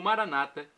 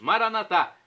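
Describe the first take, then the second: First: The stress is on the second-to-last syllable. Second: The stress is on the last syllable. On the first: This is how Protestants say it. "com a tônica na penúltima sílaba, como dizem nossos irmãos separados" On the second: This is how Catholics say it. "como dizemos nós católicos com a tônica na última sílaba"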